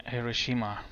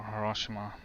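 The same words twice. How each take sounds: First: Hiroshima said as hi-ruh-SHEE-muh; stress on third syllable. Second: Hiroshima said as huh-ROSH-uh-muh; stress on second syllable. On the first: Pilot offering one way to pronounce the destination, Hiroshima as hi-ruh-SHEE-muh. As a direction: put the weight on SHEE in Hiroshima. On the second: Pilot offering the other way to pronounce the destination, Hiroshima as huh-ROSH-uh-muh. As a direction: put the weight on ROSH in Hiroshima. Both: Shown as a demonstration. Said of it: "however you wanna pronounce it".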